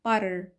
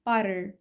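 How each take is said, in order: Both takes have the same delivery.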